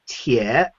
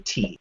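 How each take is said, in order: First: The vowel glides, sounding like 'tie'. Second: The vowel is a plain 'ee', like 'tea'. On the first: This is the standard national pronunciation. "in official Mandarin, it's tie" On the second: This is how locals in the growing region say it. "the local dialect pronounces that character T"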